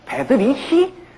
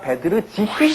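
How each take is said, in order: First: The middle consonant is a plain r. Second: The middle consonant is an r-zh sound. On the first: The speaker calls it wrong. "우리가 그냥 독일어식으로 읽으려면" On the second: The speaker calls it right. "베드리히가 아니라 베드르지히 스메타나입니다"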